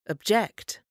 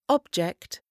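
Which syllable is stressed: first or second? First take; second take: second; first. First: The stress is on the second syllable. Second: The stress is on the first syllable. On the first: It is a verb. "Quand le même mot est accentué sur la deuxième, c'est un verbe" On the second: It is a noun. "Quand le mot est accentué sur la première syllabe, c'est un nom"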